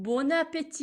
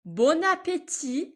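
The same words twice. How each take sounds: First: Said in the usual way. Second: Bon appétit slowly with the liaison, higher and louder; slow model take. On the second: Shown as a demonstration. Teacher models the liaison slowly for students. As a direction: draw it out, linking bon into appétit. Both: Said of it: "اینجا لیزون خواهیم داشت".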